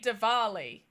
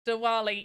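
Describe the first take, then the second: First: The middle consonant is a V sound. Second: The middle consonant is a W sound. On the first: The speaker calls it wrong. "I swear I say Diwali" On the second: The speaker calls it right. "It is with a W"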